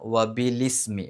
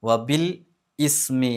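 First: It runs together as bi-lis-mi. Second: It is split into bil and ismi. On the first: The speaker calls it right. "ബി കഴിഞ്ഞിട്ട് ലീ എന്നാണ് പറയേണ്ടത്" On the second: The speaker calls it wrong. "വബിൽ ഇസ്മി എന്നല്ല"

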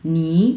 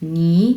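First: The syllable is said in the second tone. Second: The syllable is said in the second tone.

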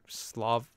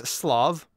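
First: The word sounds like slaw, without v. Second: The word ends with a clear v sound. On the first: The speaker calls it wrong. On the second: The speaker calls it right.

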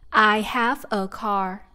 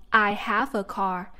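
Both takes have the same delivery.

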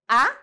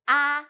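First: The pitch rises from middle to high. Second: The pitch stays high and level. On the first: The speaker doubts something or wants an answer. "And the second tone" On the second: The speaker is suddenly surprised or realizes something. "So we do first one"

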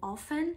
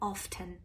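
First: The t sound is silent. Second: The t sound is pronounced.

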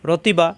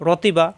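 No difference in how they are said.

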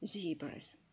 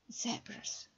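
First: It is said with an American accent. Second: It is said with a British accent.

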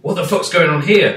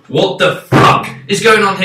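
First: It sounds curious and intrigued. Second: It sounds annoyed and fed up. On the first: The confusion is fun and engaging. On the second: The confusion is frustrating and bad. "This is bullshit"

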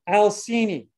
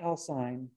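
First: The final vowel is sounded as its own syllable. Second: The final vowel is silent, dropping a syllable. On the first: The speaker calls it right. "Always pronounce that terminal E" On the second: The speaker calls it wrong. "not Alcine"

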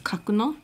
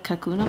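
First: The name is said with Japanese-style pronunciation. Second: The name is said with English-style pronunciation.

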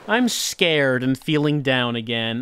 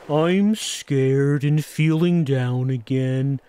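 First: It is read in the speaker's ordinary voice. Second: It is read in a put-on character voice. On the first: The speaker calls it wrong. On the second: The speaker calls it right.

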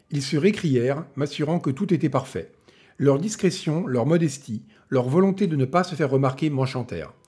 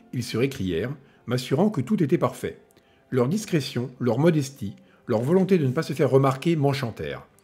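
The two takes are said the same way.

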